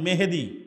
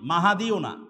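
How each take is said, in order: First: The name is said as Mehedi, with e vowels. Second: The name is said as Mahadi, with three syllables. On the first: "এই মেহেদি কিন্তু সঠিক উচ্চারণ নয়"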